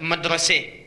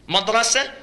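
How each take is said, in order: First: The final syllable has an 'e' vowel. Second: The final syllable has an open 'a' vowel.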